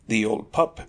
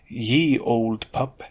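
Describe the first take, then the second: First: The first word starts with a th sound. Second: The first word starts with a y sound. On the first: The speaker calls it right. "it should simply be read as the old pup" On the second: The speaker calls it wrong. "people pronounce it as ye old pup"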